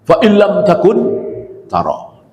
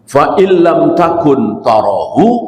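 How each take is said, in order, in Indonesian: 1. Ada jeda tepat setelah 'takun'. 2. Frasa itu mengalir terus tanpa jeda setelah 'takun'. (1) "memenggal di wakaf yang salah" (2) "ini yang benar"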